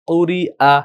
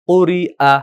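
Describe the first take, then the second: No difference in how they are said.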